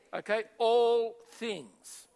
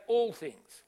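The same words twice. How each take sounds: First: ALL drawn out slow and loud, ALL things called out for the crowd to echo; slow, loud call to repeat. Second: Said in the usual way. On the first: Shown as a demonstration. Preacher prompting the congregation again, slow and loud. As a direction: stretch out ALL in all things and say it loudly. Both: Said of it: "Everyone say".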